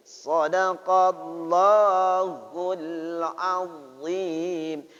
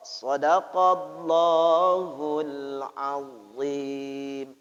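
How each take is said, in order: First: "Sadaqallahul" sung slowly with a plain s, the wrong way; wrong demo. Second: "Sadaqallahul" chanted slowly with a heavy emphatic dh; correct dha demo. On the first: Teacher chants the wrong reading of "Sadaqallahul azim". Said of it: "Tidak sadaqallahul azim". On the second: Teacher chants the right dha in "Sadaqallahul azim". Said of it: "karena itu huruf dha". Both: Shown as a demonstration.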